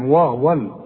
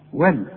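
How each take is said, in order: First: The syllable is said with heavy, thick sounds. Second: The syllable is said with light, thin sounds. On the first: The speaker calls it wrong. "ما نقولش بقى والفرقان وول، شوف وول لا يا راجل" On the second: The speaker calls it right. "رقق للواو ورقق لللام"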